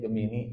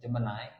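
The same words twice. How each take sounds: First: It is said the common local Indonesian way. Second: It is said the original English way. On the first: This is how people here usually say it. The speaker calls it wrong. "Kita menyebutnya Gemini" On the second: This is how the name is actually read. The speaker calls it right. "ternyata cara bacanya Gemini"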